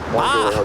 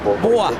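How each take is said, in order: First: The vowel is an open 'ah' sound. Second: The vowel is a rounded 'oh'-like sound. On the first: This is how someone else says Bostonians talk. "it's more like bah, like a chic bah" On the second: This is how a coworker from Boston talked. "his Boston accent was that. Boston, boah, boah, like that"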